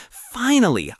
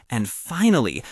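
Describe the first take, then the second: First: Finally, pitched way up and louder; joyful high finally; exasperated relief. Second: Said in the usual way. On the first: A narrator's reading. Repeated word building excitement.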